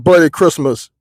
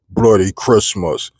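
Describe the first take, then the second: First: It is said in his normal speaking voice. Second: It is said in a spooky horror voice.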